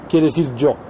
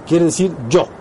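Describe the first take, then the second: No difference in how they are said.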